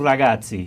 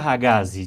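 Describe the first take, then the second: First: The name is said with Italian pronunciation. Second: The name is said with Portuguese pronunciation. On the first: "de toda forma em italiano ragazzi" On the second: "Em português vira ragazzi"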